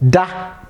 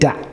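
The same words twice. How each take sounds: First: The word is said on a high tone. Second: The word is said on a low tone. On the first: It means to sleep. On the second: It means never.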